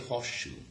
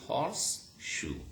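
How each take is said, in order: First: Horse ends with an sh sound. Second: Horse ends with a clear s sound. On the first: "But in rapid speech, in fluent, speedy speech" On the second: "In careful pronunciation even"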